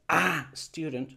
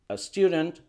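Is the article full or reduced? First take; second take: full; reduced. First: The article is a full, strong vowel. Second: The article is a short, weak vowel. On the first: The speaker calls it wrong. "no es para que digas a student" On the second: The speaker calls it right. "vamos a decir a student"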